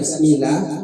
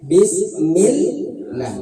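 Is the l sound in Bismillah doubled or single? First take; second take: single; doubled. First: The l sound is short and single. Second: The l sound is pressed and doubled. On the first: The speaker calls it wrong. "kalau baca Bismillah itu salah" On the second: The speaker calls it right. "jadi ditekan ke bawah"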